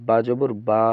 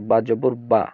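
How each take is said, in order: First: The final vowel is stretched out long. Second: The final vowel is short and not stretched.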